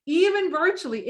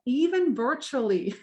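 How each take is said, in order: First: Even virtually said higher and louder; emphatic repeat of Even virtually; stress on Even virtually. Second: Said in the usual way. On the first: Shown as a demonstration. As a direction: punch Even virtually to drive it home.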